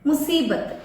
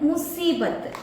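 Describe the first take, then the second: No difference in how they are said.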